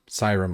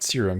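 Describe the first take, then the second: First: The first syllable sounds like 'sigh'. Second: The first syllable sounds like 'seer'. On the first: The speaker calls it right. "like Cyrus, but with an um" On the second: The speaker calls it wrong. "not serum"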